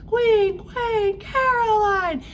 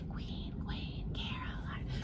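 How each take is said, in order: First: The phrase is shouted loudly. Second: The phrase is whispered softly. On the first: It is announced to everyone. "they shouted it to the kingdom" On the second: It is shared quietly as a secret. "her sisters were whispering to each other"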